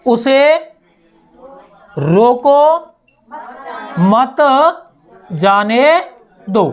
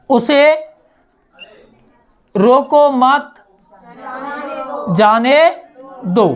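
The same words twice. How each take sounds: First: "रोको" set apart, long pause before "मत जाने दो"; pause after रोको. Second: "रोको मत" said together, long pause, then "जाने दो"; pause after मत. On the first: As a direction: break right after रोको, then slowly "मत जाने दो". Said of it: "इधर". ("रोको" के बाद लंबा विराम) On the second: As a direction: join रोको to मत, break before जाने. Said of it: "जैसे इसे हम ऐसे समझ सकते हैं". ("मत" के बाद लंबा विराम) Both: Shown as a demonstration.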